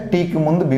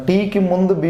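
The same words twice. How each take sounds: The two takes are said the same way.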